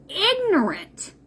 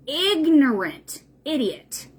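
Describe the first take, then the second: First: Ignorant drawn out slowly and pitched high; Ignorant spat out as a verdict; stress on Ignorant. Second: Said in the usual way. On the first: Real, not acted. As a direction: lean hard on Ignorant, slow and high.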